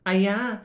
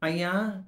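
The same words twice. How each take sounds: First: Higher, squealed ayya; a young girl spots her teacher; girlish surprise. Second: Disgusted gasp. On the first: College girl spots her professor, higher surprised squeal. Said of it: "ओळखीचा आवाज कानावर आला". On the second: Second college girl reacts to the sack bag, higher disgusted gasp. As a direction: gasp at something gross. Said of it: "दुसरीनं शहारे काढले". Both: Acted.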